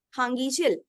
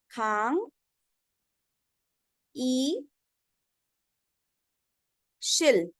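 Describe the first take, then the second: First: Said in the usual way. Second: खांग, ई, शिल with long pauses between; slow teaching demo, खांग ... ई ... शिल; syllable by syllable. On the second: Shown as a demonstration. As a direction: sound out खांग ई शिल one piece at a time. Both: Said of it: "तो हम इसको क्या बोलेंगे?".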